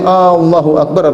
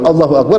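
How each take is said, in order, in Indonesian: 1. Huruf vokal A pertama dibaca panjang. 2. Huruf vokal A pertama dibaca pendek. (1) "Tapi kalau A-nya panjang" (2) "Kalau Allahu Akbar, Allah Maha Besar"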